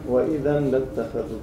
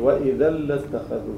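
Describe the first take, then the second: First: The n sound is pronounced before the l. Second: The n sound merges into a doubled l. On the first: The speaker calls it wrong. "هلا أنت عم تقول وإذا لاتخذ، هيك عم تقول" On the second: The speaker calls it right. "فما منعود نلفظ التنوين، ننتقل من الألف للام المشددة"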